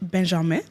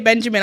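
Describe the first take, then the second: First: The name is pronounced the French way. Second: The name is pronounced the English way. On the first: "that is how you say his name in French" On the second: "I would obviously say Benjamin. I'm from the U K"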